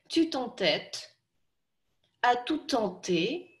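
It is spoken in short chunks with breaks. "Теперь по маленьким кусочкам"

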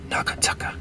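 The syllables are said in a breathy whisper. "you're not going to say it, you're going to kind of whisper it"

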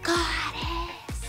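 It is said in a quiet voice.

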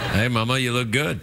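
It is said in a leering, lecherous tone. The remark comes across as creepy harassment. "Not like that. That's, like, pervy"

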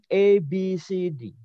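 The letter names are said the English way. This is how the alphabet is said in Malaysia. "kalau di Malaysia tidak mengatakan A, B, C, D tapi"

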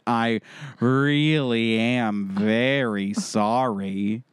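It is read in a sarcastic tone. The apology is not meant.

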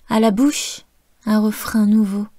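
There is a pause after 'bouche', which is stressed. "faire des pauses et d'accentuer les mots main, bouche"

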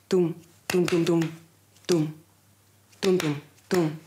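The beats come at uneven, irregular intervals. A heart with an arrhythmia. "tu corazón va arrítmico"

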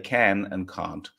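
It is said in an English accent. "and English say can and can't"

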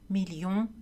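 The double L is pronounced as an L sound. This is the usual French pronunciation. "sont prononcés avec le son L"

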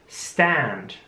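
The vowel is a flat 'a' as in cat. "Aber im amerikanischen Englisch mehr wie ein Ä"

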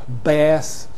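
It is said in an American accent. "In America, you've got an a vowel, which is often longer in American"

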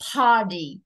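The t in the middle sounds like a soft d. "Anh Mỹ sẽ đọc là ... nó đổi thành đuôi âm D"

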